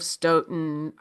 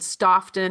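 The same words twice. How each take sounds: First: It is said with the local pronunciation. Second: It is said with a non-local pronunciation. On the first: The speaker calls it right. "instead of" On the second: The speaker calls it wrong. "I said Stoughton"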